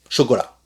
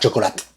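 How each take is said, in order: First: The word ends without any T sound. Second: The final T is clearly pronounced. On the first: The speaker calls it right. "C'est chocolat" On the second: The speaker calls it wrong. "le T de chocolat ne se prononce pas. C'est pas chocolate"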